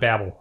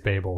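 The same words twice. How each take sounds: First: The first syllable does not sound like 'bay'. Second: The first syllable sounds like 'bay'. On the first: The speaker calls it wrong. "it's not Babel" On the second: The speaker calls it right. "it's like down by the bay"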